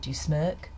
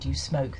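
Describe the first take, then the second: First: The last word has an 'er'-like vowel. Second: The last word has an 'oh'-like vowel. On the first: "they said do you smirk, using this vowel sound" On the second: "they didn't say do you smoke"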